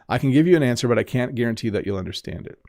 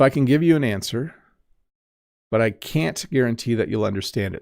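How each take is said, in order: First: Can and can't are reduced in natural speech. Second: Can and can't are pronounced fully and carefully. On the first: "So let me say it again" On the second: "So I overpronounce there"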